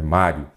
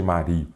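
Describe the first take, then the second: First: Mário said as MÁ-rio; stress on first syllable. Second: Mario said wrongly as ma-RI-o; stress on the i. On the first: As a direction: stress the opening MÁ of Mário, short unstressed ending. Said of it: "é Mário". (Mário com a primeira sílaba tônica: MÁ-rio) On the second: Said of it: "Nada de Mario". (Mario com tonicidade no i: ma-RI-o) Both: Shown as a demonstration.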